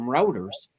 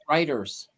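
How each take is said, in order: First: The first syllable sounds like 'root'. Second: The first syllable sounds like 'right'. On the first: The speaker calls it wrong. "I always called them routers" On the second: The speaker calls it right. "they're actually pronounced writers"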